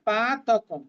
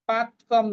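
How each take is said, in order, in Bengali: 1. 'ta' অক্ষরটি পূর্ণ, তার স্বর রাখা আছে। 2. 'ta' অক্ষরটি তার স্বর ছাড়া কাটা। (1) "কারণ তটা এখানে পূর্ণ, শেষের মটা অর্ধেক" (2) "নয়"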